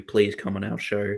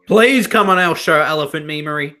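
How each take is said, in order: First: Said in the usual way. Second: Loud high-pitched begging; raised, insistent plea; pleading. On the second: Real, not acted. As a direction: beg loudly for him to come on. Begging a YouTuber, repeats louder.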